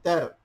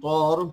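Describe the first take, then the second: First: The vowel sounds open, like 'ah'. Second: The vowel sounds rounded, like 'aw'. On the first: The speaker calls it right. "tapi tar" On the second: The speaker calls it wrong. "bukan tor"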